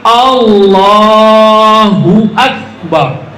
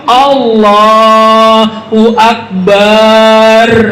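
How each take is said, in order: First: No vowel is drawn out. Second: The last syllable's vowel is drawn out. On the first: God is the greatest. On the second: It names a drum instead of calling God greatest.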